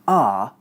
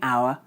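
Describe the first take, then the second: First: The word sounds like 'are'. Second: The word sounds like 'hour'. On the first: It sounds like a native speaker. The speaker calls it right. "start saying are instead" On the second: It sounds like a non-native speaker. The speaker calls it wrong. "stop saying our"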